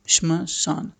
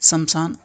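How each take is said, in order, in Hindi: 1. पहला sh बिना स्वर के m से जुड़ता है। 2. पहला sh और m के बीच एक स्वर आता है। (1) "इसमें आधा श है" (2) "शमशान लोग पढ़ देते हैं"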